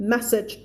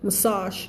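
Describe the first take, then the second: First: "MESS-ij" with stress at the front; contrasting word, message. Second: "massage" as "muh-SAHZH"; "massage" with a long "ah"; stress on second syllable. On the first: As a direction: say "message", short second syllable. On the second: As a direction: stretch the final syllable of "massage". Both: Shown as a demonstration. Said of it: "แยกออกไหม?".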